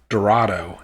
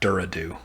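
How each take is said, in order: First: It is said with the usual Dorado vowels. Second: Its vowels are changed to sound like Duradu. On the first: This is the street's usual name. "It was called um, Dorado" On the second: Someone else said it this way. "as someone pronounced it"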